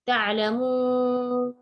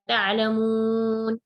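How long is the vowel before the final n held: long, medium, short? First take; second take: long; medium. First: The vowel before the final n is very long. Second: The vowel before the final n is medium length. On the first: "enam harakat" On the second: "empat harakat"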